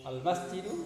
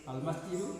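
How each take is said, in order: Both takes have the same delivery.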